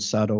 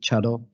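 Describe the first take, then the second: First: The word begins with an s sound. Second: The word begins with a ch sound. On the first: This is the common way of saying it. "which is most commonly used in Japanese" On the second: This is the tea school's own way of saying it. "we prefer to pronounce it Chado"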